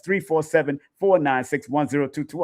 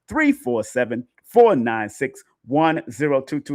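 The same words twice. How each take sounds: First: The number is said at normal, quicker speed. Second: The number is said slowly and carefully.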